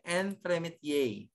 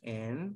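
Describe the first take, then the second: First: Said in the usual way. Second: Quiet, spaced-out teaching take of Entremet-; syllable by syllable. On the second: Shown as a demonstration. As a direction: sound out Entremet- piece by piece, leaving gaps. Teacher sounds out term by syllable.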